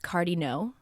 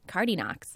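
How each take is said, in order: First: The final X is silent. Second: The final X is pronounced. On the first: "which is French" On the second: "the American kids would often pronounce the silent X at the end"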